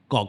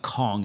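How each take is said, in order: First: The word begins with a G sound. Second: The word begins with a K sound. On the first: The speaker calls it right. "it's Gong" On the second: The speaker calls it wrong. "Hong Kong is not Kong"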